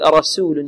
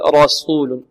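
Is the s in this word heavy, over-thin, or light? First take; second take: over-thin; heavy. First: The s is exaggeratedly thin. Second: The s is heavy and emphatic. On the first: "ولا نبالغ في ترقيق السين ... خطأ" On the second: "لا نقول رسول صو"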